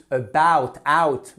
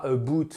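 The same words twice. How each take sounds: First: ABOUT and OUT with a loud gliding a-oo; diphthong OU. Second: ABOUT said as "a-boot", one vowel; wrong monophthong. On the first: Teacher correcting learners on about, clear diphthong. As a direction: open wide on OUT, then glide to oo. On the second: Teacher showing learners the mistake, a-boot. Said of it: "Et c'est pas about". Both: Shown as a demonstration.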